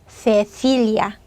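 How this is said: The first consonant is a lisped th sound. This is how people from Spain say it. "스페인 사람들이 저를 부르면"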